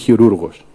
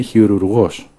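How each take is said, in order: First: The stress is on the second-to-last syllable. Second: The stress is on the last syllable. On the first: The person does the work badly. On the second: The person truly does the work of the hands.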